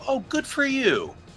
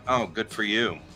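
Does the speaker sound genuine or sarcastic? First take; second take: genuine; sarcastic. First: It sounds sincere and warmly pleased. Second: It sounds sarcastic and passive aggressive. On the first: The speaker is truly happy for the listener. "and that's genuine" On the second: The speaker is not really happy for the listener. "that's sarcastic"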